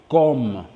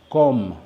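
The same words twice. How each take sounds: The two takes are said the same way.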